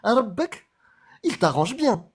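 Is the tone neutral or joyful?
joyful. It is said joyfully with big intonation.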